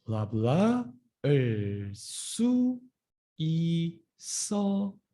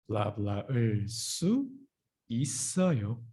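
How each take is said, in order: First: Slow practice model, syllables held apart. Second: Said in the usual way. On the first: Shown as a demonstration. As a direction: draw out each syllable for learners to repeat. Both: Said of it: "Slow down".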